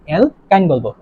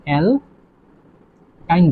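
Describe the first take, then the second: First: Said in the usual way. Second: অ্যালকাইন very slowly, long gap after the first syllable; drawn-out dictation. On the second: Shown as a demonstration. Teacher giving students the answer, অ্যালকাইন slowly in pieces. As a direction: break অ্যালকাইন into two separated syllables. Teacher sounding out a new term.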